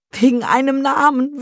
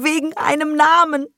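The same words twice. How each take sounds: First: Namen stressed, high and loud; stressed repetition. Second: Namen pushed higher with a falling end; stronger repeat. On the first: Mother repeats bitterly, first Namen stressed. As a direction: lean hard on Namen. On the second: Mother repeats, Namen higher and falling. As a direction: hit Namen harder the second time. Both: Acted.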